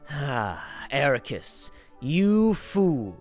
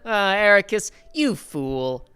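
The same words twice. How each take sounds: First: It is said in a menacing, villainous tone. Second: It is said in a friendly, good-natured tone. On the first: The character is a villain. "He goes from talking like this" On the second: The character is a good guy. "Because he's a good guy now"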